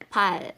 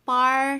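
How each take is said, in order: First: The word ends with an L sound. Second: The word ends with an R sound. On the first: The speaker calls it right. "Dito din, L sound" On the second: The speaker calls it wrong.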